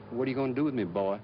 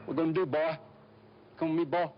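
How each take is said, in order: First: Smooth, full-sentence refined Atlanta Southern accent. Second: Chopped, clipped hill-country Southern accent, pitched higher. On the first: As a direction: let the Atlanta Southern flow politely. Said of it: "Atlanta is a very refined". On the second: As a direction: cut every word short, backwoods Southern. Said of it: "very chopped, very clipped". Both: Shown as a demonstration.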